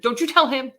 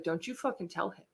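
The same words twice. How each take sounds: First: Louder, insistent stern command; firm warning. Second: Low, much softer stern warning; hushed warning. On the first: Mom ordering daughter not to tell, louder and firm. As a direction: mom puts her foot down. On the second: Mom warning her daughter, quiet and stern. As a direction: mom hisses a quiet threat. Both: Retold or imitated.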